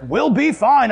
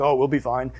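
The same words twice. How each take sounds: First: Higher, emphatic mock reassurance; insistent dad. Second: Low, soft dad reassurance; lightly voiced dad, casually brushing off worry; unconcerned dad. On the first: Dad to family in the storm, insistent. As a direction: imitate dad insisting over the chaos. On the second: Dad reassuring kids after rapids, unconcerned.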